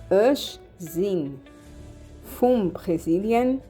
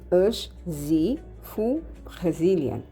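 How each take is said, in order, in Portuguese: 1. O n no final de 'von' é pronunciado. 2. O n no final de 'von' é omitido. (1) "em vez de dizermos" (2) "Aqui cortamos o N devido à regra do N"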